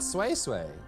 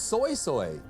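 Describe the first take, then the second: First: The name is said with a 'way' vowel. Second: The name is said with an 'oy' vowel. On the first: This is the pronunciation that was expected. "not sway sway" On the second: This is how the character said the name. "she said soy soy"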